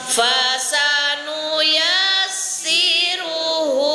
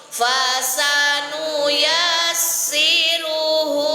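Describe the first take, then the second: The two takes are said the same way.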